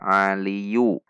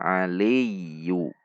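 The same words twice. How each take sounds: First: The y sound is short and single. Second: The y sound is held and doubled. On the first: The speaker calls it wrong. "Hati-hati, tidak dibaca aliyu" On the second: The speaker calls it right. "Ada ya tasydid"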